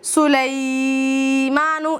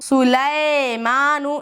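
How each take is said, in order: First: The 'ai' vowel is drawn out long. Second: The 'ai' vowel is short but sounds like 'e'. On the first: "इस तरह से खींचना भी नहीं है" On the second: "इस तरह से मजहूल नहीं पढ़ना"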